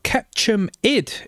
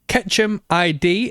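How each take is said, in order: First: ID is said as one short word. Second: ID is said as two separate letter names.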